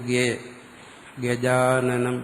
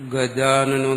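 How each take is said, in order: First: The first syllable sounds like 'ge'. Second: The first syllable sounds like a clear 'ga'. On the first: The speaker calls it wrong. "പക്ഷെ ചൊല്ലുന്നത് എങ്ങനെ?" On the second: The speaker calls it right. "അവർ ഗജാനനം എന്നേ പറയത്തുള്ളൂ"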